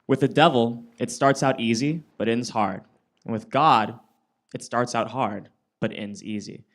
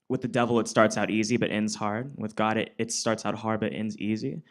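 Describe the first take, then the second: First: It is said slowly. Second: It is said at normal speed.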